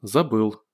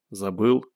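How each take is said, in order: First: Falling tune on "Забыл"; admitting. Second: Slight rise at the end of "Забыл"; questioning. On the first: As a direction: confess "Забыл" as a subdued statement. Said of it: "признался Гош". («Забыл» как признание) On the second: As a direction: ask "Забыл" as a gentle check. Friend asks if he forgot. («Забыл» с вопросом) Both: A narrator's reading.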